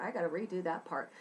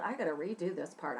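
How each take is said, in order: First: Rattled off quickly under the breath; fast self-note. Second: Said in the usual way. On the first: Real, not acted. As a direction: rush it like a quick note to yourself. Same self-note, repeated faster.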